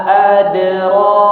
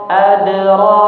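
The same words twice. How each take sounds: No difference in how they are said.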